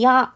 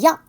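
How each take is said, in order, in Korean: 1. 이 음절은 길게 늘여서, 이에서 아로 미끄러지듯 발음해요. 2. 이 음절은 한 소리로 빠르게 발음해요. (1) "천천히 했을 때는" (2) "이렇게 빠르게"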